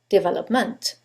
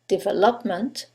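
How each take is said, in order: First: The stress is on the last syllable. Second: The stress is on the third syllable.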